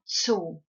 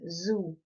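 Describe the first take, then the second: First: The word begins with a sharp ts sound. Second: The word begins with a soft buzzing z sound. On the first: "the Z is not soft in German. It is really sharp" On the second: "different to the English as in zoo"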